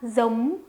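It is said in a northern Vietnamese accent. "북부 중심 발음 방식은 여기까지고요"

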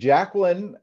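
The name is said with an American pronunciation. "is the American pronunciation?"

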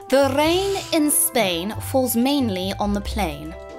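It is spoken in an exaggerated, very posh accent.

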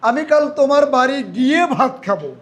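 The word গিয়ে is stressed. The going there is what matters. "আমি ভার্বে জোর দিই"

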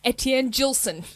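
The name is said in an Australian accent. The speaker calls it wrong. "In my Australian accent"

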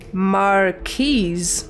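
The word is said the American way. "In American, you say Marquis"

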